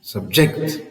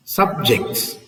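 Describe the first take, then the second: First: Subject stressed as sub-JECT; "subject" with a low SUB, landing on JECT; stress on second syllable. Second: Subjects stressed as SUB-jects; "Subjects" with a strong SUB, falling away; stress on first syllable. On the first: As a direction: hit the last syllable of subject. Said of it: "stress on the second syllable". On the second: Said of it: "stress on the first syllable". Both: Shown as a demonstration.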